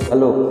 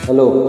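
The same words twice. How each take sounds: The two takes are said the same way.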